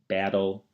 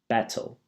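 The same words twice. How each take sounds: First: The T is flapped like a D, American accent. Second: The T is pronounced clearly, in a British accent.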